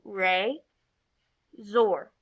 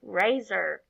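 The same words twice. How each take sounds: First: "Re, zor" in two syllables with a clear pause; each syllable of "Re, zor" said alone; separate syllables. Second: "Razor" run together as one word; "Razor" said whole as the final word; blended syllables. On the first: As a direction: break it into "Re" and "zor". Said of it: "blend our two syllables together". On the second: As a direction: join both syllables of "Razor" without a pause. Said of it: "blend those syllables together". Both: Shown as a demonstration.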